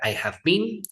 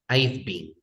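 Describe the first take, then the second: First: I have is said as two full words. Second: I have is shortened into one syllable. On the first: "You can use contraction or not" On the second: "or we can say I've"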